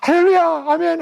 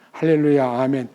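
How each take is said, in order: First: The phrase is shouted loudly and wildly. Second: The phrase is said at a quiet, restrained volume. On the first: The speaker calls it right. "큰 소리로 마구마구 외쳐라" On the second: The speaker calls it wrong. "그렇게 하면 안 돼"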